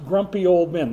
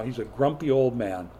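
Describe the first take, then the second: First: Put-on grumpy old men stressed loud, falling on old; emphatic label. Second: Said in the usual way. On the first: Shown as a demonstration. Preacher naming Jonah, emphatic stress. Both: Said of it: "That's what we're calling Jonah".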